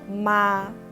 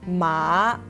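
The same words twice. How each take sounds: First: The pitch stays high and level. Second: The pitch drops low, then rises again. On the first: It means mom. "the first tone, or 第一声, is called the flat tone" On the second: It means horse. "Ma has the third tone"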